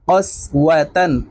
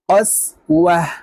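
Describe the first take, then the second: First: The word ends with a -tan syllable. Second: The word ends with a silent h sound. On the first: The reading continues without a stop. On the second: The reading stops at this word.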